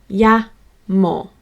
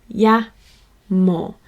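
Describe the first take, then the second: Both takes have the same delivery.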